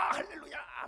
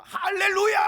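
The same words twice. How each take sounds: First: Unvoiced, falling hallelujah; breathy echo shout. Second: High, loud happy shout; mock joyful hallelujah. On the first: Congregant whose wish came true, breathy echoing shout. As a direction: let the second hallelujah fall away in a breathy shout. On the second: Congregant whose wish came true, loud jubilant shout. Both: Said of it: "막 이럽니다".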